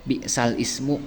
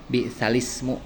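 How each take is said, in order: First: The words are separated with a break before ismu. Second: The words are joined smoothly without a break. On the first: The speaker calls it wrong. "sulit ya mengucapkan bi'sal ismu, berat itu" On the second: The speaker calls it right. "Jadi bi'salismu seperti itu"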